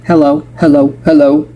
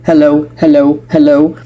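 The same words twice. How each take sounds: The two takes are said the same way.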